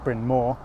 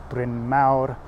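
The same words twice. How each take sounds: First: The name has an American pronunciation. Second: The name has a Welsh pronunciation.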